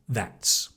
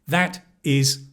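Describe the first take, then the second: First: It is said as one contracted word. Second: It is said as two full words. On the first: "you actually hear that's" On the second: "you're expecting to hear that is"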